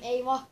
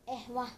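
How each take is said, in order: First: The middle consonant is a y sound. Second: The middle consonant is an h sound. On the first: The speaker calls it right. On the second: The speaker calls it wrong.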